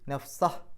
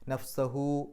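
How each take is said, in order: First: The word ends on a bare h sound. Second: The word ends with a hu syllable. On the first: The reciter stops after this word. "ആ ഹ എന്ന് സുക്കൂനിട്ടിട്ട് വേണം നിർത്താൻ" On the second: The reciter continues without stopping. "നഫ്സഹു എന്ന് പറഞ്ഞിട്ട്"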